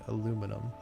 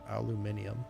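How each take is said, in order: First: The word is said the American way. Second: The word is said the European way. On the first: The speaker calls it right. "Aluminum, not aluminium" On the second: The speaker calls it wrong. "Why do the Europeans pronounce this aluminium"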